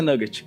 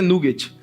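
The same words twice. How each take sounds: First: It is said with an English pronunciation. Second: It is said with a Brazilian Portuguese pronunciation. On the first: "Em inglês é" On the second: "Em português é"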